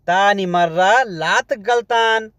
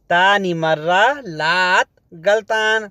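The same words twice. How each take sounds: The two takes are said the same way.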